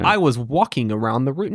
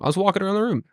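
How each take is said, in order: First: Walking ends with a hard, full 'ing' sound. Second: Walking ends with a clipped 'in' sound. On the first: It sounds stiff and robotic. The speaker calls it wrong. "what are you, a fucking robot?" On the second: It sounds natural and casual. The speaker calls it right.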